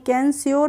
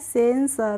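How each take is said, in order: First: The word begins with a K sound. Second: The word begins with an S sound. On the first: The speaker calls it wrong. "कैंस्योर नहीं पढ़ेंगे" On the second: The speaker calls it right. "लेकिन इसको हम पढ़ते हैं सेंसर"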